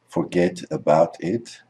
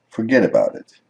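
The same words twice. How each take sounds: First: The T's are said as clear T sounds. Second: The T's are said as soft D sounds.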